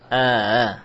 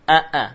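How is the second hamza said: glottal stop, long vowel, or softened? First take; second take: softened; glottal stop. First: The second hamza is softened, between stop and vowel. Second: Both vowels start with a full glottal stop. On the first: "adapun tashil, ya, antara membaca a-a dengan a, jadilah a-a" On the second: "ini namanya mentahqiq hamzah, membaca hamzah muhakkak dari makhrajnya"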